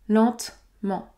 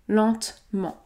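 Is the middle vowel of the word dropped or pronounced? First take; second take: dropped; dropped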